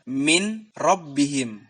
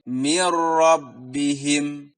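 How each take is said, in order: First: The n is pronounced clearly before the r. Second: The n merges into r without nasal hum. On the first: The speaker calls it wrong. "Tidak boleh diizharkan" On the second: The speaker calls it right. "Dia dimasukkan tanpa dengung"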